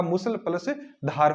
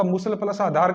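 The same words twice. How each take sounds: First: "मूसल plus धार", second word starting straight on dh; correct word split. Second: "मूसल plus आधार", second word opening on a long aa; wrong word split. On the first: Teacher correcting the split for students, "धार" without the initial aa. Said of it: "लेकिन यह मूसलाघात". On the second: Teacher showing students the mistaken split, "आधार" with an added initial aa. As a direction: split it wrongly, sounding आ before धार in "आधार". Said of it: "विच्छेद करने के लिए कह दे तो अपन इसका". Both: Shown as a demonstration.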